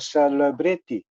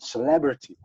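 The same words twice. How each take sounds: First: The stress is on the second-to-last syllable. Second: The stress is on the second syllable. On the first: This is the Indonesian way of saying it. "in Bahasa Indonesia you have the accent on the next to the last" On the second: This is the English way of saying it. "in English, you have to do it on the second syllable"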